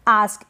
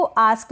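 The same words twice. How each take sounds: First: आस्क with long back "aa", "aask"; first accepted pronunciation. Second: आस्क fronted to "ae", like "aesk"; second accepted pronunciation. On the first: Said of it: "आस्क भी पढ़ते हैं". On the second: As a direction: say आस्क with open front ऐ vowel. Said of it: "और आस्क भी पढ़ते हैं". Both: Shown as a demonstration.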